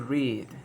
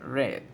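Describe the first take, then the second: First: The vowel is long, like in 'reed'. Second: The vowel is short, like in 'red'. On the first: The verb is in the present tense. "Si yo lo digo en presente es to read" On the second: The verb is in the past tense. "Pero en pasado es read"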